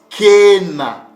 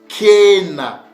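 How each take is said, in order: The two takes are said the same way.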